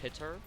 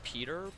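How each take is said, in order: First: The first vowel is a short 'i' sound. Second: The first vowel is a long 'ee' sound. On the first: This is how the speaker says the name. "I pronounce it like P I T R" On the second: This is how other people say the name. "People say it's pronounced Peter"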